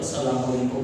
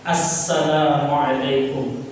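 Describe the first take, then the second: First: It is rushed and the opening 'a' is dropped. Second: It is unhurried with a clear opening 'as'. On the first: The speaker calls it wrong. "jadi jangan buru-buru ketika sholat" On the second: The speaker calls it right. "Maka pas-pas"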